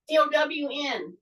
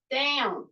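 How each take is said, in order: First: D O W N spelled letter by letter. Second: Said in the usual way. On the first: Shown as a demonstration.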